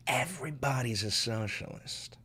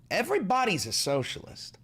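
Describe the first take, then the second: First: Hushed repeat. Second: High exclaimed claim. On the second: Repeats claim two ways. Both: Real, not acted.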